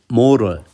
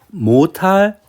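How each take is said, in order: First: It is said with an English accent. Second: It is said with a Japanese-style accent. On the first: The speaker calls it right. "두 번째는 어, 영어 발음으로" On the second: The speaker calls it wrong. "앞에 발음은 그냥 일본어적으로 읽는 거고"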